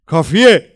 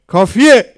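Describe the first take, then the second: First: Angry shout, much higher and louder; furious shout. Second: Even higher, louder angry scream; furious shout rising. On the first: A man in the crowd yells at the prisoner, furious shout. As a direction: bellow it in rage to silence him. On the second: The crowd member repeats his order, screaming furiously. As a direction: top the first shout, raging. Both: A narrator's reading.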